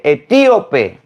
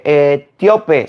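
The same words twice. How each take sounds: First: "etíope" drawn out with strong stress on TÍ; corrected etíope. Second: "etíope" said wrong as e-TIO-pe, í and o run together; mispronounced etíope. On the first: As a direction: say "etíope" slowly as e-TÍ-o-pe, punching TÍ. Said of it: "se dice etíope". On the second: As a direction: say "etíope" slowly with the stress slid off the í. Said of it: "no se dice etíope". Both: Retold or imitated.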